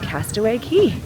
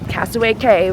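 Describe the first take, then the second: First: The last word sounds like 'key'. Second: The last word sounds like 'kay'. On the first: The speaker calls it right. "that's pronounced Key" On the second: The speaker calls it wrong. "that's definitely not the right way of saying it"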